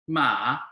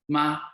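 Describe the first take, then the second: First: The pitch dips down and then rises. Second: The pitch stays level and flat. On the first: It means horse. "The third tone, or the V tone" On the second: It means mother. "the first tone is flat"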